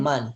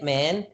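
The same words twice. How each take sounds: First: The vowel is an open Spanish-style a. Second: The vowel is an English-style flat a. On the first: The speaker calls it right. "but man" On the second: The speaker calls it wrong. "not as in English, which is like man"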